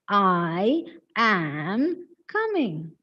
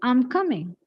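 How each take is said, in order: First: I and am are said as separate words. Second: I and am are merged into one syllable. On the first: The speaker calls it wrong. "this is often mispronounced as" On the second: The speaker calls it right. "This is I'm coming"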